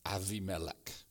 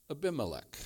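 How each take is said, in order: First: Avimelech with a soft v, said low and softer; Hebrew pronunciation. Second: Said in the usual way. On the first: Shown as a demonstration. Preacher savouring the Hebrew name for his congregation, softly. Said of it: "I like the way the Hebrew sounds there". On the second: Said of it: "I like the way the Hebrew sounds".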